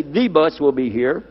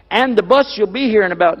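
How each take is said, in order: First: Said in the usual way. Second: AND THE BUS pitched high, as a mock example; higher-voiced demo of starting with AND; unnatural sentence opener. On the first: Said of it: "They say". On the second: Shown as a demonstration. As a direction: act out an odd opening on AND. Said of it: "Nobody talks like that".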